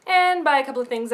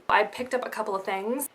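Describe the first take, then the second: First: Couple said louder and higher, tongue in cheek; stress on couple. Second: Said in the usual way. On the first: Shown as a demonstration. Vlogger admitting her haul with a knowing stress on couple. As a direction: lean on couple like a wink. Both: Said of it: "I mean a lot of things".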